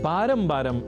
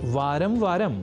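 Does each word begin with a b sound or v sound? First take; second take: b sound; v sound. First: Each word begins with a b sound. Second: Each word begins with a v sound. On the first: The speaker calls it wrong. "बारम बारम इस रूप में हम प्रयोग कर लेते हैं" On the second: The speaker calls it right. "शब्द है वारंवार या वारम वारम"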